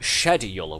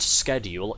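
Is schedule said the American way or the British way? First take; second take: British; American. First: The word is said with a British pronunciation. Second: The word is said with an American pronunciation. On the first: The speaker calls it right. "We speak the Crown English here" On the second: The speaker calls it wrong. "not schedule"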